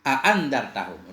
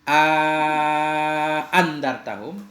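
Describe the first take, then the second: First: The vowel between the two glottal sounds is short. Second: The vowel between the two glottal sounds is lengthened. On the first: "atau tanpa mad" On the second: "bersama ada mad di tengahnya"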